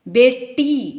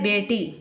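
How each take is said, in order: First: The middle consonant is doubled and held long. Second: The middle consonant is single and short. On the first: This is the Western Hindi way. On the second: This is the standard Hindi way.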